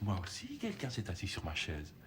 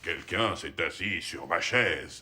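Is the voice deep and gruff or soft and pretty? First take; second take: pretty; deep. First: It is said in a soft, pretty voice. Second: It is said in a big, deep voice.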